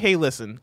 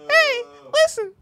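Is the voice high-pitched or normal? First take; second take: normal; high-pitched. First: It is said in a normal speaking voice. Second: It is said in a put-on high voice. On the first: "I'm not going to try and get that high. I'm just going to say" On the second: "I want to see you make the attempt"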